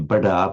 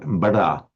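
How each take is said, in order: First: The middle consonant is a plain d sound. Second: The middle consonant is a retroflex r sound. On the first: The speaker calls it wrong. "You don't say bada" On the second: The speaker calls it right. "an intervocalic d becomes a retroflex r"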